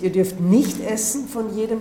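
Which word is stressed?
nicht. The stress falls on the word nicht. No tree at all may be eaten from. "Entweder die Betonung auf nicht"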